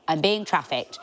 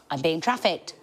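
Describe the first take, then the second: First: The repeat shouted as a joke panic; mock panic shout. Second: Said in the usual way. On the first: Repeating the fear to the audience as a mock shout. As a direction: yell it the second time in mock alarm.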